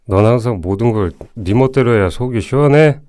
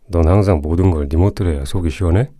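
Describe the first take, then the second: First: The voice is higher and less forceful. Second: The voice is deep, low and menacing.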